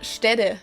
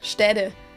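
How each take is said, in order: First: The middle consonant sounds like a soft D. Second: The middle consonant sounds like a soft D.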